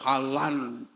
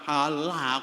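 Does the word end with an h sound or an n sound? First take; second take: n sound; h sound. First: The word ends with an n sound. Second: The word ends with an h sound. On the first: The ending is kept as if reading on without stopping. The speaker calls it wrong. "kok halan" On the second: The reader pauses and stops on this word. The speaker calls it right. "Wakaf kan halah"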